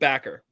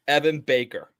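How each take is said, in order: First: The first vowel sounds like the one in 'back'. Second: The first vowel sounds like the one in 'bake'. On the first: The speaker calls it wrong. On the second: The speaker calls it right.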